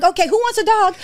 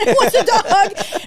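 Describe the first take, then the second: First: High, chirpy mock announcement; eager retold offer. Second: High, slow, drawn-out mock call; exaggerated naive enthusiasm, stretched out; hammed-up eager offer. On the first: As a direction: offer it round to anyone. Her naive offer as newcomer. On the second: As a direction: sing out the offer to all takers. Repeats her naive offer, exaggerated.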